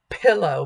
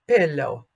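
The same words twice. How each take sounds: First: The p has a puff of air. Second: The p has no puff of air. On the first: The speaker calls it wrong. "If we aspirate our consonants, then we are doing our consonants like in English. ... So not pillow" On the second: The speaker calls it right. "but pillow, pillow, if that word were in Italian"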